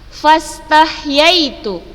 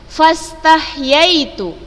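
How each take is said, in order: No difference in how they are said.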